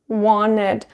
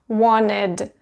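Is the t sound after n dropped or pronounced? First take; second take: dropped; dropped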